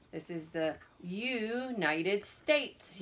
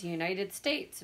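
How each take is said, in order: First: Put-on each word slowly spelled out for kids; slow and clear. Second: Said in the usual way. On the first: Shown as a demonstration. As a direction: say it slowly so children can follow.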